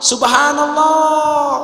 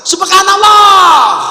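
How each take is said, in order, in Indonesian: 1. Diucapkan dengan suara normal yang lebih pelan. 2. Diucapkan jauh lebih keras dan lebih tegas.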